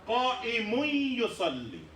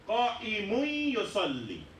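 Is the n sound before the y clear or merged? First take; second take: merged; merged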